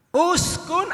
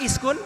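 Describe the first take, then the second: First: The word begins with an u vowel. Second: The word begins with an i vowel. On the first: The speaker calls it right. "Uskun ataukah iskun bacanya?" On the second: The speaker calls it wrong. "Uskun ataukah iskun bacanya?"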